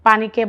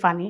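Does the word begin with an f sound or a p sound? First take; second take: p sound; f sound. First: The word begins with a p sound. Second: The word begins with an f sound.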